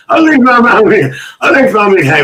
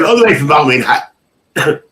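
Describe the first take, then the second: First: High, loud, rousing call; hollered catchphrase. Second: Said in the usual way. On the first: Acted. Host repeats a viewer's greeting to the chat, hollering it.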